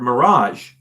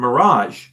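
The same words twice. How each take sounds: First: The word is pronounced as in English. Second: The same.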